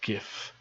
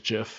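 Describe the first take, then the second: First: The word starts with a hard G sound. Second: The word starts with a soft J sound. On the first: The speaker calls it right. "It's spelt with a G. It's GIF" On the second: The speaker calls it wrong. "no one is ever going to convince me that you pronounce it as GIF. I'm sorry, that's just weird"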